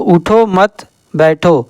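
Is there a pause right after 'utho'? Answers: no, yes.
no. There is no pause after 'utho'.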